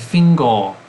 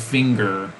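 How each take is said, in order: First: The word ends in a vowel without R. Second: The word ends with a clear R sound. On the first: The speaker calls it wrong. "They're going to be saying fingo" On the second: The speaker calls it right. "they're not going to be saying finger"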